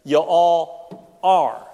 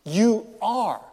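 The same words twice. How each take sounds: First: "You all are." slow, weight falling on "are"; stress on ARE. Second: "You are." with "You" raised and pushed; stress on YOU. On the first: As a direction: lean into "are", drawn out. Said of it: "Jesus says". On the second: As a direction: hit "You" high, then settle on "are". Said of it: "it simply is". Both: Shown as a demonstration.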